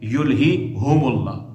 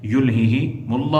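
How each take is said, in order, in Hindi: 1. 'mulla' से पहले का सर्वनाम स्वर 'u' है। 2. 'mulla' से पहले का सर्वनाम स्वर 'i' है। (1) "कसरा के बाद क्या होगा, जम्मा होगा" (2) "कसरे के साथ पढ़ेंगे"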